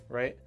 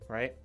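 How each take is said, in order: Both takes have the same delivery.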